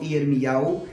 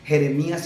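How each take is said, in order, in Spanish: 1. El nombre termina en sonido 'ow'. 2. El nombre termina en sonido 'ee-as'. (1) "sino Iermiau" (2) "no se dice Jeremías"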